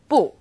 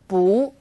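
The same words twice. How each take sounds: First: Bu has a falling fourth tone. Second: Bu has a rising second tone. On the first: "When used on its own, bu is fourth tone" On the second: "When bu is used before another fourth tone, it becomes second tone"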